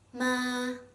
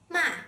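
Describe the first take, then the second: First: The pitch stays high and level. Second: The pitch falls sharply from high. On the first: It means mom. "flat and high-pitched tone" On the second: It means to scold or curse. "with a sharply falling tone"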